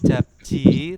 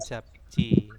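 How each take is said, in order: First: The middle consonant sounds like a soft j. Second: The middle consonant sounds like a tense ch. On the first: The speaker calls it wrong. "Bukan japji" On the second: The speaker calls it right. "tetapi japci"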